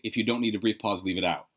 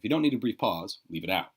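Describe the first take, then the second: First: It runs on with no break after 'pause'. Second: There is a short break after 'pause'.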